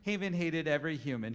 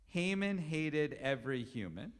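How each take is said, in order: First: It is said fast. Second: It is said slowly.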